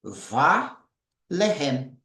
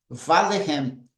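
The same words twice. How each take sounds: First: Va-lehem drawn out very slowly, syllable by syllable; slow model pronunciation. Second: Va-lehem said smoothly as one word; now say Va-lehem fluently; model pronunciation at normal pace. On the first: Teacher slowly modelling the word, very drawn out. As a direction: stretch Va-lehem out for the class. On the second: Teacher repeating the word at speaking pace, smooth. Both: Shown as a demonstration. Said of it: "Como seria a pronúncia?".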